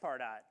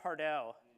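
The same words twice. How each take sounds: First: The name is said in a plain, everyday way. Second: The name is said in a fancy, refined way. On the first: This is how newcomers first guess the name. "thought it was pronounced Pardot when you first heard it" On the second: This is the more sophisticated way to say it. "that's the more sophisticated way to say it"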